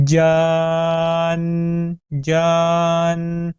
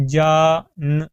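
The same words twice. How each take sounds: First: جان with the jeem stretched long, gliding into nun. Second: جان said short, jeem and nun apart; wrong, clipped. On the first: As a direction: hold جان very long and join it. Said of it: "لمبائی کے دوران ہی آپ نے جیم کو نون کے ساتھ ملانا ہے". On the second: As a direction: clip جان like plain speech. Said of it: "جیم کو آپ علیحدہ پڑھیں اور نون کو آپ علیحدہ". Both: Shown as a demonstration.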